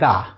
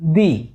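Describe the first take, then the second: First: The vowel is short and neutral, like 'thuh'. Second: The vowel is a long 'ee', like 'thee'. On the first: "সেটার উচ্চারণ হবে দা" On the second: "পদাশ্রিত নির্দেশক হিসেবে যে বসাবো দি"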